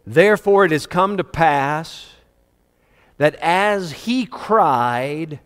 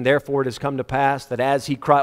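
First: Slow right down on "as he cried"; emphatic rereading. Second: Said in the usual way. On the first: Shown as a demonstration. Preacher making congregation listen to verse thirteen, emphatic and drawn-out. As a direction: stretch "he cried" out, with pauses between phrases. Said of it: "please listen to verse thirteen".

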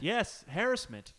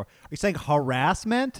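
First: "harassment" with stress on the first syllable, HAR-ass-ment, slowly and higher; British "harassment", first syllable stressed. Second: "harassment" said with stress on the second syllable, slowly; slow "harassment" with a rolled "rass". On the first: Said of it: "what they say across the pond". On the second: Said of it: "when you keep saying harassment". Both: Shown as a demonstration.

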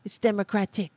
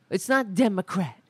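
First: "Democratic" with the full -ic ending stressed; right word form. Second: "Democrat" said flat and clipped as the wrong form; wrong word form. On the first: Host correcting the party name, "Democratic" stressed as the right form. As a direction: land firmly on the ending of "Democratic". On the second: Host correcting the party name, "Democrat" as the wrong form. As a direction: say "Democrat" as the mistake being corrected. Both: Shown as a demonstration.

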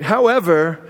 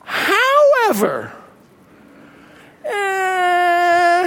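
First: Said in the usual way. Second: High, drawn-out, whimpering however; a mock-sad whine on however. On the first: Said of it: "here's what they say next". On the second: Shown as a demonstration. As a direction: let the word sag into a sad groan. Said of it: "a sad face next to it".

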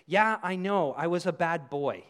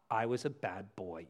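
First: Light, glib admission of fault; downplaying. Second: Low, quiet quoting back; disapproving echo. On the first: Offender admitting to serious wrong, downplaying. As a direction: toss off a confession as if it were minor. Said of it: "trying to hide and downplay it". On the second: Retold or imitated. Throwing the offender's words back at them, low and disapproving. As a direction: repeat the excuse low and soft, unimpressed. Echoes offender's excuse in his rebuke.

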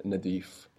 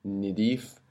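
First: "nadif" with an open A in the first syllable; A vowel. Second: "nidif" with a short I in the first syllable; I vowel. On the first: Teacher contrasting dialect vowels, "nadif" with open A. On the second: Teacher contrasting dialect vowels, "nidif" with short I. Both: Shown as a demonstration. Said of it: "the difference between nidif and nadif".

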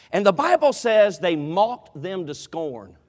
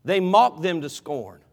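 First: Slow, weighty scripture read, each word leaned on; solemn slow emphasis; slow emphatic reading. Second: "mocked" hit hard and slow, then "scorn" falling; stress on mocked. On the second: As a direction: slowly repeat it, punching "mocked". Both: Shown as a demonstration. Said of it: "Can I, can I finish this thought?".

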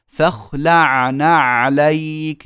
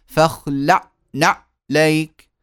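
First: فاخلعنا with the ain swallowed, slow and drawn out; mispronounced ain. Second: فاخلعنا said slowly with no clear ain; wrong ain. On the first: Teacher demonstrating a faulty reading to students, slow mispronunciation. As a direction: say فاخلعنا dragging it, ain dropped. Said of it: "لو واحد قرأ فقال". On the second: Teacher showing students the wrong reading, slow mispronunciation. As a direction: drag out فاخلعنا, ain lost. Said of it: "مش يقول". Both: Shown as a demonstration.

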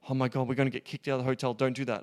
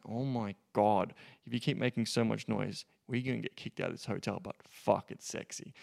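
First: Panicked rush. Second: Playful dominant. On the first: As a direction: rush it out like you're scared of getting caught. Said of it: "you don't wanna do it like". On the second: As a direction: tease her, amused and in control. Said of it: "So you can say it like that in that tonality". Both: Shown as a demonstration.

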